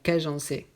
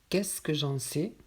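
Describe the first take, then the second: First: The middle syllable is dropped from the phrase. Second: Every syllable of the phrase is pronounced.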